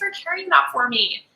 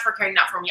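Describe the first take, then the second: First: It is said in a flirty, playful tone. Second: It is said in a plain, sincere tone. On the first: The speaker is romantically interested. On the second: The speaker is simply grateful.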